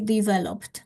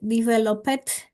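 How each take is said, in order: First: The -ed ending adds no extra syllable. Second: The -ed ending is sounded as an extra syllable. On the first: The speaker calls it right. "This ed ending is uh, silent. This is the correct pronunciation" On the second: The speaker calls it wrong. "we have the tendency to uh, to underline like developed"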